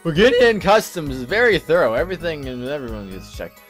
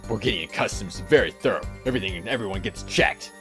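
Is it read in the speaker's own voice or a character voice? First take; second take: own voice; character voice. First: It is read in the speaker's own voice. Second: It is read in the character's put-on voice.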